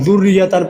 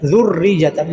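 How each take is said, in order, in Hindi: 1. सिर्फ r की ध्वनि दोहराई जाती है, y की नहीं। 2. r और y दोनों की ध्वनि दोहराई जाती है। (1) "एक शद को हज़फ कर देते हैं" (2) "रा के ऊपर पहले शाद करनी है, फिर रा को या के साथ मिला के या को भी शाद करनी है"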